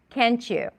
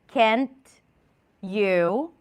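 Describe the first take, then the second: First: The T and Y blend into a ch sound. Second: The T and Y are said separately. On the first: "What did I add? ... Ch" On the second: "I'll say it separately, deliberately"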